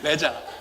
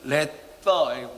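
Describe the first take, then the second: First: The middle consonant is a z sound. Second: The middle consonant is a th sound.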